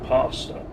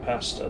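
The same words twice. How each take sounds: First: American accent with an elongated A vowel. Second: British accent with a shorter A vowel. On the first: "they say pasta" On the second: "whereas we might say pasta"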